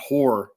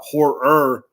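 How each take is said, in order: First: The word ends without a clear 'er' sound. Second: The word ends with an added clear 'er' sound. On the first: The speaker calls it wrong. "not horror" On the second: The speaker calls it right. "I have to add that er, at the end"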